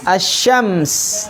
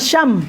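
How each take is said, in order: First: The word ends with a final s sound. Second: The word ends without a final s sound. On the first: The speaker calls it right. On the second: The speaker calls it wrong.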